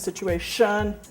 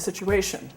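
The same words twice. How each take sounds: First: The stress falls on the last syllable. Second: The stress falls before the last syllable. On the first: "she's shifting it to situation" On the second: "in conversation, you might say situation"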